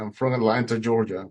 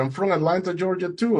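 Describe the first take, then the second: First: Said in the usual way. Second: High, excited discovery, retold; surprised delight. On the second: Boatman finding the swimmer shares his hometown, surprised delight. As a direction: exclaim the coincidence in a much higher pitch.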